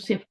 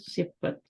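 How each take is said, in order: First: It has a plain s and is clipped short. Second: It has a heavy s and two full syllables. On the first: "Urdu में हम इसको सिफ़्त बोलते हैं" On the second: "मैंने अरबी में भी बताया था सिफ़त"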